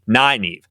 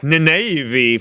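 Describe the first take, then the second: First: The first syllable sounds like 'nigh'. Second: The first syllable does not sound like 'nigh'. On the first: The speaker calls it right. "capital N, capital I, capital G, capital H, and then N E E V" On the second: The speaker calls it wrong. "I called her like Nynaeve for like a decade"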